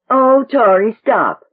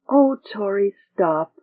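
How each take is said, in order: First: It is said in an impatient, mocking tone. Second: It is said in a weary tone.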